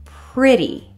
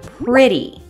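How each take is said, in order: The two takes are said the same way.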